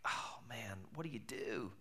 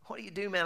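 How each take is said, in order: First: Hushed, breathy panic under the breath; stunned whisper in the dark; whispered dismay. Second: Mild mock panic, voice jumping up; panicked outcry. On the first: Retold or imitated. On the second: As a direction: let the panic burst out. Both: Panic after losing passport.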